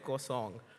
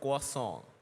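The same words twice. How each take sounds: First: It is said with a French-style pronunciation. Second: It is said with an English-style pronunciation. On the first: The speaker calls it right. "the actual French pronunciation ... It's K W A N" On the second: The speaker calls it wrong. "the croissant that I used to call"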